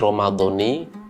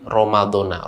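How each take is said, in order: First: The word ends with an 'ee' vowel. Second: The word ends with an 'ah' vowel. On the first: The word is read as the possessed term of a construct. "dibaca mudhof, ... maka dia menggunakan kasroh" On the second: The word is read as an appositive to the preceding word. "dan bisa dibaca Ramadhana ... dibaca dengan fathah"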